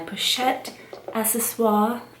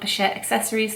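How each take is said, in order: First: The second word has a French pronunciation. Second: The second word has an English pronunciation. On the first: "I said it that way if it makes you happy" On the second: "I'm gonna go with Pochette accessories"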